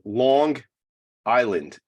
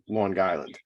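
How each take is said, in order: First: It is said in a standard, neutral accent. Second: It is said in a local New York accent. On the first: This is how the name is properly said. "but it's actually" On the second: This is how people from the area say it. "the way we pronounce it is"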